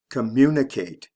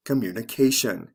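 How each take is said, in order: First: "Communicate" stressed co-MU-ni-cate; stress on second syllable. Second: "communication" stressed communi-CA-tion; stress before the ending. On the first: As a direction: punch MU in "Communicate". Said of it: "third syllable from the end is actually the second". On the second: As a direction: land on CA in "communication". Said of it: "the stress comes right before the ending". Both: Shown as a demonstration.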